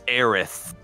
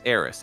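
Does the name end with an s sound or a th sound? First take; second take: th sound; s sound. First: The name ends with a th sound. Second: The name ends with an s sound. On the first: This is how the name was said in Europe and most other places. The speaker calls it right. "no, man, it's Aerith" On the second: This is how the name was usually said in the US. The speaker calls it wrong. "it was always Eris"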